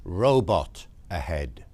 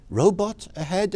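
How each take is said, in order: First: Slow, low read-out of a sign; measured sign reading, falling at the end. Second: Higher, rising question; puzzled echo of a road sign, pitched up; puzzled query. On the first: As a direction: read it out slowly, word by word. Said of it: "and it says". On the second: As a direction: query it in disbelief. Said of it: "I say". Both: Acted.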